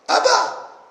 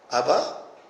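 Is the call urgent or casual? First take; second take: urgent; casual. First: It is an urgent cry for help. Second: It is a casual call to come.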